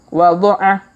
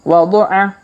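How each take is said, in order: Both takes have the same delivery.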